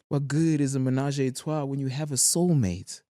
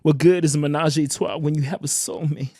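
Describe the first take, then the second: First: It is said in the speaker's ordinary voice. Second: It is said in an imitated rapper's accent.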